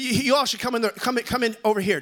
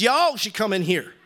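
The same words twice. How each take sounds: First: Said in the usual way. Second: Lightly imitated wife's way of talking, stretched "Y'all"; imitating wife. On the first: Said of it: "She doesn't talk like that". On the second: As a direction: lean on "Y'all" as your wife would. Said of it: "No, she says".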